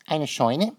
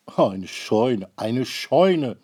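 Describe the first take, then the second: First: Puzzled question. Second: Mild annoyed repeat. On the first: Maruffel asks puzzled. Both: A narrator's reading.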